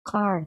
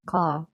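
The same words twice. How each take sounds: First: Car with a strongly pronounced R; American car, strong R. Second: Car with the R left silent; British car, no R. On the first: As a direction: say car slowly, R curled at the end. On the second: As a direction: say car slowly as "cah". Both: Shown as a demonstration. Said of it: "Rを強く発音するかしないか".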